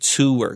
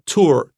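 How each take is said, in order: First: The word is said with two syllables. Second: The word is said with one syllable. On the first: "我的两个音节很清楚" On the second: "one syllable"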